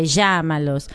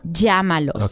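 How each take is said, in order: First: The ll is said the Argentine way. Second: The ll is said like a y. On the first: "If you're learning Spanish from Argentina, you're going to say" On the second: "you can say, ya"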